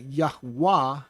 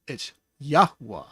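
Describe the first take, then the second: First: The stress is on the last syllable. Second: The stress is on the first syllable. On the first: The speaker calls it wrong. "the emphasis is on the final syllable" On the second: The speaker calls it right.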